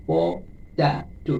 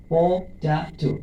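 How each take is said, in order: First: potato drawn out slowly, syllables separated; syllable by syllable again. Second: potato said very slowly, each syllable apart; teacher spells out potato slowly, syllable by syllable. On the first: Teacher counting syllables, potato stretched slowly. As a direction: tap out potato slowly, one syllable per touch. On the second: Teacher to students, potato said slowly by syllables. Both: Shown as a demonstration. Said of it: "potato তিনবার".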